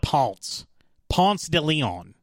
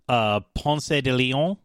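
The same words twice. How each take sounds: First: The name has an anglicized Southern pronunciation. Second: The name has a Spanish-style pronunciation. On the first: "we just call it Ponce de Leon" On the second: "I'm going to try to actually pronounce it the correct way, as in the European way"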